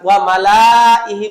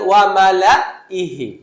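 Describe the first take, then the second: First: The 'la' is stretched into a long vowel. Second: The 'la' is cut off with a stop. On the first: "লাম আলিফ মানে আলিফ মাদ, ওয়া মালা ইহি পড়বেন" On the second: "যদি সুকুন ধরেন তাহলে আপনি করবেন ওয়া মালা ইহি, খুসা দিবেন"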